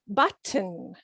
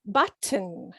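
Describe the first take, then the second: First: The middle T is fully pronounced. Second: The same.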